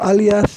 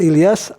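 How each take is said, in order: First: The first vowel is an 'a' sound. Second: The first vowel is an 'i' sound. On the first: "dengan membaca fathah hamzahnya" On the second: "cara membaca Ilyas itu dengan membaris bawahkan hamzah itu"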